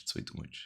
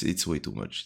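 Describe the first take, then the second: First: Breathy whispered echo of the line; whispering. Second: Said in the usual way. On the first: Acted. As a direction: drop to a whisper for the repeat. Repeats the complaint, then whispers it.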